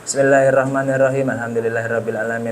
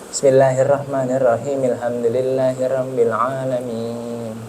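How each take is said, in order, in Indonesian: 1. Dua frasa itu menyambung tanpa jeda. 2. Ada jeda di antara dua frasa. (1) "nggak bisa langsung disambungin" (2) "Pasti tahu itu cara potongan-potongannya gitu"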